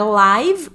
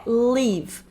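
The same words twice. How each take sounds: First: Live with an extra vowel at the end, as "livi"; wrong pronunciation. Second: Live ending cleanly on the v, no extra vowel; correct pronunciation. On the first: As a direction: say live the wrong way, adding a final i. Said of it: "Pronúncia aqui não é live". (live errado, com i no final) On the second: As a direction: say live the English way, short i, no final vowel. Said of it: "é live". (live certo, sem vogal no final) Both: Shown as a demonstration.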